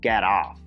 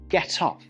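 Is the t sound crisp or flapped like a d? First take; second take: flapped; crisp. First: The t is flapped, sounding like a d. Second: The t is crisp and clearly released. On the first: "Американці мають дивну тенденцію вимовляти букву Т як Д" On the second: "не забувайте сильніше виділяти цю «т»"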